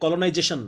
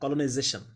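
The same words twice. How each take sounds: First: The middle consonant is a j sound. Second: The middle consonant is a buzzing z sound. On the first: The speaker calls it wrong. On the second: The speaker calls it right.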